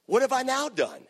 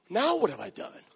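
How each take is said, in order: First: High, indignant "what have I done"; mock innocent David. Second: Raised, wounded "what did I do"; innocent protest. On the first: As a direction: play David protesting his innocence. David mocking older brother. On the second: Acted. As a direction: sound falsely accused. David repeats protest.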